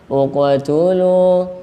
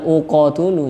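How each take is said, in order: First: The q sound bounces lightly like a short vowel. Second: The q sound stops dead with no bounce. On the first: The speaker calls it right. "maka ketika membaca seakan-akan dia berharokat" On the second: The speaker calls it wrong. "bukan uqtulu ya"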